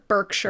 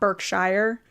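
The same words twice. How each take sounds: First: The ending sounds like 'sure'. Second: The ending sounds like 'shire'. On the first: The speaker calls it right. "they'd say it Sure" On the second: The speaker calls it wrong.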